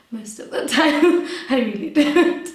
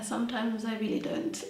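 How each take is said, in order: First: Real laughter through the words, a bit louder; laughing admission. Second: Said in the usual way. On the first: Real, not acted. Guest confessing life isn't together, laughing. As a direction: admit it while laughing.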